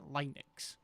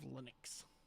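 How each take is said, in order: First: Linux is said an older, unusual way. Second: Linux is said the usual, common way.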